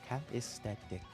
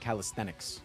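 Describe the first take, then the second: First: The word is said without the n sound. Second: The word is said with the n sound. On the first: The speaker calls it wrong. "Why does it not sound right on my tongue?" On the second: The speaker calls it right. "it's with an N"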